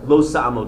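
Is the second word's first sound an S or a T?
S. The second word begins with an S sound.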